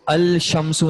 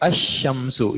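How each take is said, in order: First: A clear L sound is said before shamsu. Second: No L is heard; the sh is doubled. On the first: The speaker calls it wrong. "इसको अल शम्सु नहीं पढ़ा जाता" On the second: The speaker calls it right. "बल्कि अशम्सु, शीन को दो बार"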